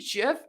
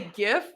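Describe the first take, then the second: First: The word begins with a soft j sound. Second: The word begins with a hard g sound. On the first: It sounds like the name of a peanut butter brand. The speaker calls it wrong. "if I say GIF, it's a freaking peanut butter" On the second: This is the speaker's chosen pronunciation. The speaker calls it right. "So I'm going to say GIF"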